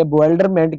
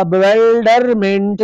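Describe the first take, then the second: First: Said in the usual way. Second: Bewilderment very slowly drawn out, each syllable stretched. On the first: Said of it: "कितने हो गया जी". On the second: Shown as a demonstration. Teacher showing students how to count syllables, bewilderment slowly sounded out. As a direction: sound out bewilderment as be-wil-der-ment. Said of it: "बी ई को अलग करते हैं".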